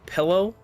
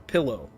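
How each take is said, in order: First: The first syllable sounds like pel. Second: The first syllable sounds like pill. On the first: "more like a L, pel" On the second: "or pill kind of sound"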